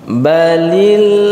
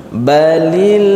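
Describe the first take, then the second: No difference in how they are said.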